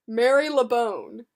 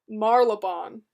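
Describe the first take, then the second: First: The first part sounds like 'Mary'. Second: The first part sounds like 'Marl'. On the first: The speaker calls it right. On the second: The speaker calls it wrong.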